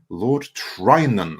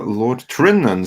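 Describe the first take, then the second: First: The first syllable sounds like 'try'. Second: The first syllable sounds like 'trin'. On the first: The speaker calls it right. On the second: The speaker calls it wrong.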